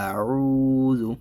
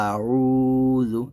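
No difference in how they are said.

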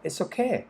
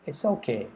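First: It is said in a lively, impressed tone. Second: It is said in a flat, lukewarm tone. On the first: It is actually really good. "เฮ้ยใช้ได้เลยแหละ" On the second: It is merely acceptable. "มันก็แปลว่าก็ใช้ได้"

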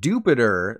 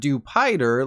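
First: The ending does not rhyme with 'slider'. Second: The ending rhymes with 'slider'. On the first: The speaker calls it right. "is called Dupiter" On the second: The speaker calls it wrong. "not Dupider, like a hamburger slider"

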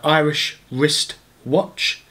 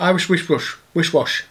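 First: Each sound of the phrase is said clearly. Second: The sounds blur together into a messy slur.

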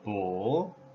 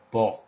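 First: The syllable carries the full third tone. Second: The syllable is short, light and toneless. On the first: "it's tone number three" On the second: "very simple, short, and light pronunciation"

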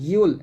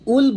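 First: The syllable begins with a clear y sound. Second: The syllable begins with a plain vowel. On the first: The speaker calls it right. "ইয়া লাম পেশ ইউল বলতে হবে" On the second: The speaker calls it wrong. "এখানে আমরা একটা ভুল করি, উল বলি"

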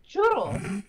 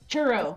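First: It is said with a strong Mexican accent. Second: It is said with a plain American English accent.

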